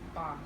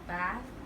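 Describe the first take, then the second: First: It is said in a southern British accent. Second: It is said in a northern British accent. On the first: "for the southern accent, they would say ba" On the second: "for northern accent, they would say bath"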